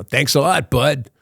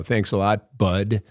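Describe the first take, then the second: First: Put-on higher, lightly done Brooklyn cabbie accent; tossing off thanks in a Brooklyn accent. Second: Said in the usual way. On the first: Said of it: "that same Brooklyn accent". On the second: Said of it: "And I go".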